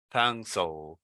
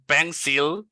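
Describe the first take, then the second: First: "pencil" as "pen-sul", low and falling; correct pencil. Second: "pencil" as "pen-seal", higher and rising; mispronounced pencil. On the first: Teacher giving learners the fix, correct pronunciation. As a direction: drop softly onto a dark l in "pencil". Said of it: "This sound here". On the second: Teacher repeating the mistake to avoid, wrong pronunciation. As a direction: put a full ee in "pencil". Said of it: "It's not pencil". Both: Shown as a demonstration.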